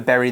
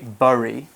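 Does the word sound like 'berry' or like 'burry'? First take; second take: berry; burry. First: The vowel sounds like the 'e' in 'bed'. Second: The vowel sounds like the 'u' in 'burn'. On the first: The speaker calls it right. "we say berry the same way that we say the berry that you eat" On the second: The speaker calls it wrong. "we don't say bury"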